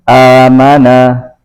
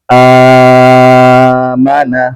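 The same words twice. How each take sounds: First: The opening long vowel is held two counts. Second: The opening long vowel is held six counts.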